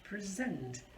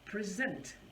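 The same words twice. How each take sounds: First: The stress is on the second syllable. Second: The stress is on the second syllable.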